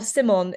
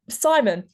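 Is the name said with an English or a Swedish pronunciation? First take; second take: Swedish; English. First: The name is said with a Swedish pronunciation. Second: The name is said with an English pronunciation.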